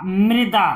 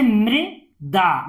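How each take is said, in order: First: Said in the usual way. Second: "मृदा" in two separated parts; syllable by syllable. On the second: Shown as a demonstration. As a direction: split "मृदा" with a pause inside. Teacher sounds out, then blends. ("मृदा" को तोड़कर पढ़ना)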